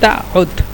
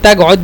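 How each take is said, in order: First: The middle consonant is a glottal stop. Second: The middle consonant is a gh sound. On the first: "হামজা দিয়ে উচ্চারণ করে" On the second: "আমি সবসময় এই তা গয়ত বলি গয়েন দিয়ে"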